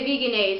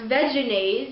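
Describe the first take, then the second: First: The first syllable sounds like 'vee'. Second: The first syllable sounds like 'vedge'. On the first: The name is read as coming from vegan. "it looks kind of like vegan, and they say Vegenaise" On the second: The name comes from vegetarian mayonnaise. "originally pronounced Vegenaise, as in vegetarian mayonnaise"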